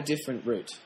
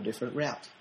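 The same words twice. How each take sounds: First: "route" rhyming with "boot"; "route" pronounced "root". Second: "route" rhyming with "out"; "route" pronounced "rout", said lower and softer. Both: Shown as a demonstration. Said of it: "depending on how you want to pronounce it".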